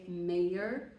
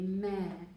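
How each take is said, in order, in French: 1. Il est prononcé avec l'accent du locuteur. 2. Il est prononcé avec un accent britannique. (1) "je dirais meilleur et mère" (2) "in the accent more euh, britannique, ça serait mère et mère"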